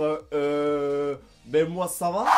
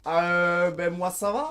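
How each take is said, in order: First: Said in the usual way. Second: « euh » commencé par un A; euh diphtongué. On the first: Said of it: "si t'as juste envie de dire". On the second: Shown as a demonstration. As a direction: glisser de A vers EU dans euh. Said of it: "Tu vas mettre toujours un petit A". (« a-euh » à la québécoise)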